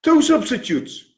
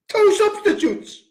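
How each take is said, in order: First: Said in the usual way. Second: Much higher, indignant echo; high incredulous repeat; outraged repeat. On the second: Real, not acted. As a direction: spit it back in outrage.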